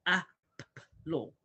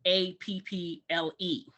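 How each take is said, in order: First: APPLE broken slowly into its sounds, ah, p, p, ul; sounded out by letter sounds. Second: APPLE as letter names A, P, P, L, E; spelled out by letter names. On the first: Teacher shows parents how letters sound, APPLE sounded out slowly. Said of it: "you say the sound of the letter". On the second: Teacher shows parents the wrong way, spelling out A P P L E by letter names. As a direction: say each letter of A P P L E by its name. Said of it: "you don't say A P P L E". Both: Shown as a demonstration.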